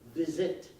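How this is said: Quebec French accent, with a short i vowel.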